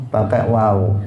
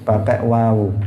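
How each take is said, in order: The two takes are said the same way.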